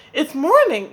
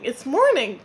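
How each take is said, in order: First: Loud, high wake-up call; eager cry over the fire. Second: The repeat a little less loud; crying out. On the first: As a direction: shout it to rouse the sleeping birds. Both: Acted. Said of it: "cried Spider".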